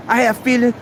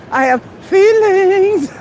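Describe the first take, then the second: First: Said in the usual way. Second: High, slow, hammed-up wounded whine; mock hurt feelings. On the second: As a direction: overplay being hurt, stretched and louder. Mock emotional take, then laughs.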